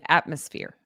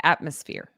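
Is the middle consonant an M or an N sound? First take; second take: M; M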